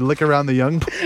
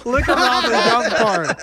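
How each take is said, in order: First: Said in the usual way. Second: Giggling through the words; laughing. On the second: Real, not acted. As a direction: laugh while repeating it. Laughing repeat.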